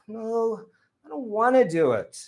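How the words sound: A low, tired voice that sounds sad. The speaker feels sorry for themselves. "there's a little more um, sadness there ... That's moaning"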